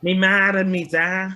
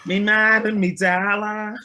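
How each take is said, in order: First: Broad Liverpudlian accent, a bit higher and louder. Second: Broad Scouse, higher and louder; "Me mad and me dollar" in a thick Liverpool accent; Liverpudlian accent. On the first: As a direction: say it like a Scouser from Liverpool. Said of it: "That was a good Liverpudlian accent". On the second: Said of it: "That was a good one". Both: Shown as a demonstration.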